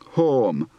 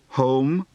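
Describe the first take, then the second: First: The vowel is an aw sound. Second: The vowel is an oh sound.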